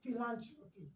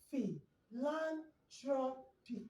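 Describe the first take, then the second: First: "philanthropy" said whole, syllables run together; joined together. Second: "phi, lan, tro, pi" as separate beats; broken into syllables. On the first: Teacher to class, blending the syllables back together. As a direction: blend it back into one word. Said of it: "Then you join it together". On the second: Teacher to class, again splitting the word into beats. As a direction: tap out each syllable of philanthropy. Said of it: "you break it up". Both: Shown as a demonstration.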